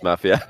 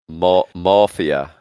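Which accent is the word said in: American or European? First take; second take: European; American. First: The first vowel is the plain European 'a'. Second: The first vowel is the American 'maw' sound. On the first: The speaker calls it right. "we don't have that in EU, it's just Mafia" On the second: The speaker calls it wrong. "Maw is Scottish for mum"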